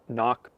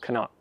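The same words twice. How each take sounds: First: The word starts directly with an N sound. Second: The word starts with a K sound before N. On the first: "you can leave the C silent and just say it" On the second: "but typically"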